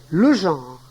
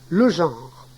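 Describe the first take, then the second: The two takes are said the same way.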